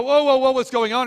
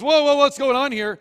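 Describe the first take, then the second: First: High, loud alarmed cry; startled Balaam. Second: High, loud startled cry as the donkey. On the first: Balaam hearing his donkey speak, an alarmed cry. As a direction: jump back as the donkey talks. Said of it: "Balaam is go". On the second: The donkey shying from the sword, a startled cry. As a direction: play the donkey spooked by the angel. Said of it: "Donkey goes". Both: Acted.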